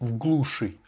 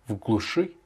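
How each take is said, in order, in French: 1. L'accent tombe sur la première syllabe. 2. L'accent tombe sur la dernière syllabe. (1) "tu as dit в глуши, alors que non" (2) "L'accentuation est sur le «u»"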